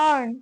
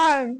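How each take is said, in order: The two takes are said the same way.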